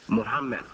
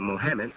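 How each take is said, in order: First: The name is said as Mu-ham-mad. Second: The name is said as Mo-ham-med. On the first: The speaker calls it right. "it's still the same pronunciation, Muhammad" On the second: The speaker calls it wrong. "who make the mistake of saying Mohammed"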